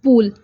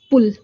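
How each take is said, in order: First: पूल with a long, drawn ऊ; पूल, बड़ा ऊ, खींचकर बोलें; long u sound. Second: पुल with a short, clipped ऊ; पुल, छोटा ऊ, जल्दी बोलें; short u sound. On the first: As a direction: stretch the vowel in पूल to "poool". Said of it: "यानी कि बड़े ऊ वाली". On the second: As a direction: say पुल as "pul", vowel kept brief. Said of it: "छोटे ऊ वाली sound आ रही है". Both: Shown as a demonstration.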